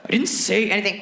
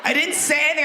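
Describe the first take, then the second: First: Said in the usual way. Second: Higher-pitched, defensive denial; mock defensive protest. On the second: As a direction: protest your innocence, pitched up. Acted guy protesting after her shriek.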